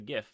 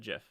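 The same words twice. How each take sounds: First: It begins with a hard G sound. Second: It begins with a soft J sound. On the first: The speaker calls it right. "it's a GIF" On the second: The speaker calls it wrong. "it's not a GIF. Don't call it GIF. That's peanut butter"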